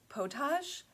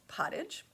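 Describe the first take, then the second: First: The word is said with a French pronunciation. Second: The word is said with an English pronunciation. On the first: The speaker calls it wrong. "maybe that's how you pronounce it in French" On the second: The speaker calls it right. "That's the English version"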